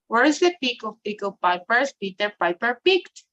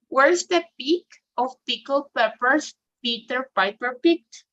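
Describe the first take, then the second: First: It is said fast. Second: It is said slowly.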